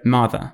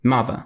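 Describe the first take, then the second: Both takes have the same delivery.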